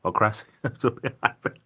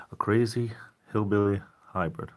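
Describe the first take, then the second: First: Laughing. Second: Hushed, breathy whisper of the name. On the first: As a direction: repeat it aloud with a laugh breaking in. Repeats the name, laughing. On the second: Reading a viewer's odd username in a whisper. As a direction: whisper it like a secret. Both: Real, not acted.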